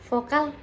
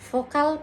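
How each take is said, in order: No difference in how they are said.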